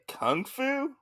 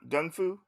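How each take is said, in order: First: The word begins with a K sound. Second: The word begins with a G sound. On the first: The speaker calls it wrong. "isn't it kung fu? But they were, they had to correct me on that" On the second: The speaker calls it right. "They call it gun gung fu"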